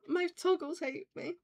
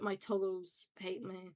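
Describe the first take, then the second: First: High-pitched mock shock; mock dismay. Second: Said in the usual way. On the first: Streamer repeating the complaint about toggles, mock dismay. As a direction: pitch it up, playfully aghast.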